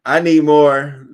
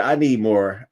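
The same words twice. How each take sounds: First: Slow loud "I need more"; emphatic shout. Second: Said in the usual way. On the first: Real, not acted. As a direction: demand it, loud and drawn out. Demand shouted louder.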